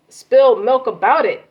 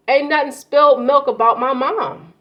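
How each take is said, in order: First: "spilled milk" almost shouted, louder; forceful emphasis. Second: Spilled milk pushed out higher and louder; emphatic stress. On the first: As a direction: hammer "spilled milk" home, loud and insistent. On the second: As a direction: lean hard on "spilled milk", raised voice. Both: Real, not acted. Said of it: "That's why I'm not saying it like that".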